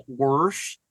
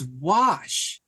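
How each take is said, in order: First: "wash" said as "worsh", with an R; R thrown in. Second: Said in the usual way. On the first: Retold or imitated. Telling grandma there's no R, mock mispronunciation. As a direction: draw out "wash" and put an R before the sh. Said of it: "where are you getting the R from". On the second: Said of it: "There's no wash".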